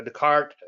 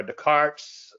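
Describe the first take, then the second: First: "Descartes" with the final s dropped, day-KART; "Descartes" corrected to end on a plain t; second try at the name. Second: "Descartes" with the final s sounded, day-KARTS; "Descartes" tried with a hissed final s; first try at the name. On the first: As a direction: say "Descartes" closing on the t. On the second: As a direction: say "Descartes" ending on a clear s. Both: Shown as a demonstration. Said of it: "however you say his name".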